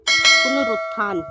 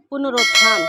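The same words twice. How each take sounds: First: पुनरुत्थान with a short u, "punarutthan"; loud, slow पुनरुत्थान with a clear "rut"; पुनरुत्थान drawn out as puna-rut-than; correct pronunciation. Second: पुनरुत्थान with an o, "punarotthan"; पुनरुत्थान misread as puna-rot-than; wrong pronunciation. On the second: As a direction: say पुनरुत्थान loudly with "ro" for "ru". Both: Shown as a demonstration. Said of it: "अशुद्ध और फिर शुद्ध".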